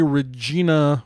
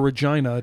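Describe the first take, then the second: First: The name is said the ordinary American way. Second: The name is said the British way.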